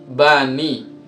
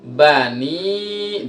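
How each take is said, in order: First: The final vowel is short, one beat. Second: The final vowel is long, two beats. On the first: "Kalau nggak ada iyanya" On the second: "Setelah kasro ada iya nih"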